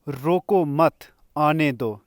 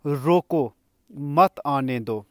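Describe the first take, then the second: First: रोको मत said together, then a break before आने दो; pause after मत. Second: रोको, then a clear break before a drawn-out मत आने दो; pause after रोको. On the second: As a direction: set रोको apart, then say मत आने दो slowly as one phrase. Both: Shown as a demonstration. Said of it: "इन दोनों वाक्यों में विराम बदल जाने से अर्थ भी बदल".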